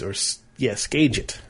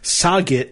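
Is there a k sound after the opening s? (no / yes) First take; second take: yes; no. First: It starts with s followed by a k sound. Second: It starts with s and no k sound. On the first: The speaker calls it right. "it's actually Skaget" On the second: The speaker calls it wrong. "Jeff was calling the brewery Saget"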